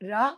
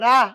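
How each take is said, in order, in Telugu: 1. నవ్వుతూ, ఆప్యాయంగా అంటారు. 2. సాదాగా, సూటిగా అంటారు. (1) "కొంచెం నవ్వు మొహం పెట్టుకొని" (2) "ఇలా కాదు"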